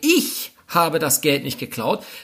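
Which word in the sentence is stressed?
ich. The word "ich" is stressed. Someone else did it. "dann ist völlig klar, dass es höchstwahrscheinlich jemand anderes war"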